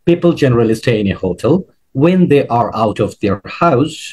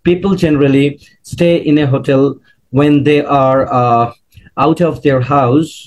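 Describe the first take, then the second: First: It flows as one long unbroken chunk. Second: It is broken up by hesitant pauses. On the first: The speaker calls it right. "যতটা একটু লঙ্গার chunk করে বলতে পারবো" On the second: The speaker calls it wrong. "আমি যদি থেমে বলি দেখবেন যে খারাপ লাগছে"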